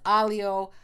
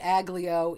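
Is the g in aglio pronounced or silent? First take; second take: silent; pronounced. First: The g is silent, said like alio. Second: The g is pronounced as in spelling. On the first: The speaker calls it right. "It's what it is it is alio" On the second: The speaker calls it wrong. "the temptation is to go phonetic on it"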